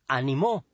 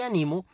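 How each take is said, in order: First: The stress is on the last syllable. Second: The stress is on the middle syllable. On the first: Someone else encouraged in the past. "se tilda porque es aguda" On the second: The speaker encourages themselves now. "no se tilda porque es grave"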